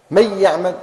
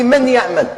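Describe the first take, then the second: First: "من يعمل" run together as "may-ya'mal"; doubled ya. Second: Said in the usual way. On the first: Shown as a demonstration. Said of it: "ننطق الياء مشددة". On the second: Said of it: "كيف نقرأ الإدغام بغنة".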